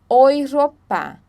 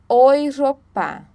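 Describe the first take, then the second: Both takes have the same delivery.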